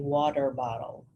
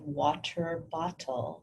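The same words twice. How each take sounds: First: The T sounds are said like soft D's. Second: The T sounds are said as crisp T's.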